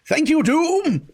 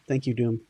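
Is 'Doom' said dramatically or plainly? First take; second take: dramatically; plainly. First: It is exclaimed in a dramatic, villainous way. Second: It is said in a plain, ordinary voice. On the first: The speaker calls it right. "I have to like curse it like, uh, like every G I. Joe member ever" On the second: The speaker calls it wrong. "I can't say it like that"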